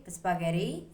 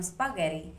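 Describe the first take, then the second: First: Spaghetti said as aspaghetti; spaghetti with a vowel in front. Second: Spaghetti starting straight on the S, no vowel before it; standard spaghetti. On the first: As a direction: add an uh before spaghetti. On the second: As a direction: begin spaghetti right on the S. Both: Shown as a demonstration. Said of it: "From spaghetti".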